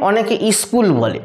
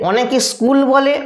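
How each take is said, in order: First: স্কুল said with a short i before it; added initial vowel. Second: Said in the usual way. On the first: Shown as a demonstration. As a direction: say স্কুল as "is-kul". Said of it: "একটা অতিরিক্ত হস্যই নিয়ে চলে এলো". (স্কুল-এর আগে বাড়তি হ্রস্ব ই) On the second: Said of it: "যারা স্কুল বলছে তারা যথার্থ উচ্চারণ করছে".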